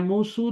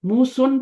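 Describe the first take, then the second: First: The name ends with a short u sound. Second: The name ends with a short u plus n. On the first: "तो नहीं होता ना" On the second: "तो नहीं होता"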